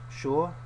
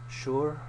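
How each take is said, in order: Both takes have the same delivery.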